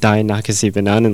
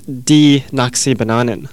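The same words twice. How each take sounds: First: The first word is said like English "die". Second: The first word is said like "dee". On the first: The speaker calls it wrong. "I pronounced it Die Nakasi Bananen last time, but it isn't" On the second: The speaker calls it right. "D-I-E is pronounced D in Dutch"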